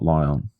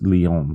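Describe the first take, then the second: First: The name is said with an English pronunciation. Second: The name is said with a French pronunciation. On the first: The speaker calls it wrong. "not Lyon" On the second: The speaker calls it right. "It's Lyon, ... because that's French"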